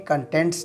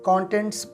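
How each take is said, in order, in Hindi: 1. बलाघात दूसरे अक्षर पर है। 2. बलाघात पहले अक्षर पर है। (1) "कंटेंट्स नहीं" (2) "आपने इसे कंटेंट्स प्रोनाउंस करना है"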